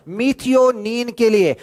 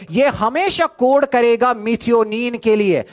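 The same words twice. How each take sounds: First: "methionine के लिए" drawn out slowly; slow emphatic repeat. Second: Said in the usual way. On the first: Shown as a demonstration. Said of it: "repeated slowly for emphasis". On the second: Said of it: "methionine के लिए repeated".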